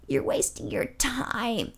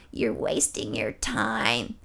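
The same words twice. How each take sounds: First: Slow, hushed, eerie croak; creepy old lady. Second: Much lower, slow, hushed eerie croak; creepy old lady. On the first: Old lady in the wheelchair warns him, slow and eerie. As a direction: spook him like a horror movie ghoul. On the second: Old lady repeats her warning to him, low and slow. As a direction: drop into a deep horror-movie whisper. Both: Retold or imitated. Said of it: "kinda like a horror movie".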